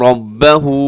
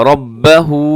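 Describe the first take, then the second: No difference in how they are said.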